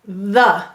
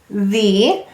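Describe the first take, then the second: First: The vowel is reduced to a short 'uh'. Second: The vowel is said fully, not reduced. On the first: "when we're lazy, what do we say?" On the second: "Let's read it as we would say to spell"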